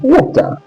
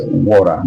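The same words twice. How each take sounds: First: WATER with a hard true T, high-pitched; British T. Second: WATER with the T tapped like an R; American flap T. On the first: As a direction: sound the T of WATER fully, British way. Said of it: "It's different from British English". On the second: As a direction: say WATER the US way, T as a light R. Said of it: "The U S water". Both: Shown as a demonstration.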